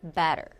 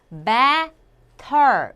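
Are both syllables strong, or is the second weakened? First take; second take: second weakened; both strong. First: The first syllable is stressed, the second weakened. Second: Both syllables are said with equal strong stress. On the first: The speaker calls it right. "뒤에 이 발음은 약화되는 거죠" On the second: The speaker calls it wrong. "이렇게 둘 다 강한 게 아니라"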